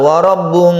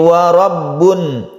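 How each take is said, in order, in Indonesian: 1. Bunyi n di akhir samar dan tidak jelas. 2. Bunyi n di akhir diucapkan dengan jelas. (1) "tidak boleh samar ... bukan" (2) "suara nunnya jelas"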